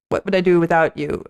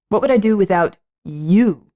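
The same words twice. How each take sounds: First: The stress falls on the word without. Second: The stress falls on the word you. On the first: The person is merely helpful. "it's not just, okay" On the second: The person is uniquely special. "You are special to me. You"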